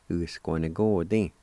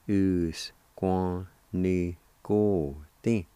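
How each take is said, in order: First: "Us-quan-ni-go-tin" run together as one word; joined-up pronunciation. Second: "Us, quan, ni, go, tin" with syllables drawn out; slow sounding-out. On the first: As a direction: blend "Us, quan, ni, go, tin" without pauses. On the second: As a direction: teach "Us-quan-ni-go-tin" one syllable at a time. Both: Shown as a demonstration. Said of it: "it's pronounced like this".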